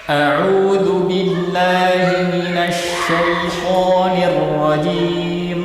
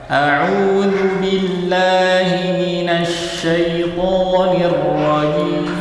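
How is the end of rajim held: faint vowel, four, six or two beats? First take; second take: two beats; four beats. First: The long vowel in rajim is held two beats. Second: The long vowel in rajim is held four beats. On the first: "Dua harokat"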